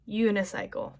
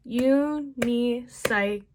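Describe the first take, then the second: First: Said in the usual way. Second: Slow, broken into syllables; u-ni-cy-cle spoken slowly, syllable by syllable; syllable demo. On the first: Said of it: "you do". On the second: Shown as a demonstration. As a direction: sound out each beat of the word. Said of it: "I do".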